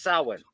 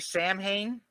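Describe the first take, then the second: First: The word is said the Irish way. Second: The word is said as the movie says it. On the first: The speaker calls it right. "as an Irishman, it's pronounced Samhain" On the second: The speaker calls it wrong. "in the movie they say Samhain"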